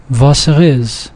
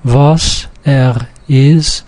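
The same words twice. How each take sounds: First: "Was er is" slow but with no breaks; merged into one string. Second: "Was, er, is" very slow, one word at a time; separate words. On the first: Teacher showing how vowels merge, merged into one string. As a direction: run "Was er is" together as one word. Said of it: "merge all into one big string". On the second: Teacher showing there are three different words, separate words. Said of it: "here you have three different words". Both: Shown as a demonstration.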